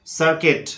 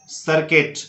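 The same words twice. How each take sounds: The two takes are said the same way.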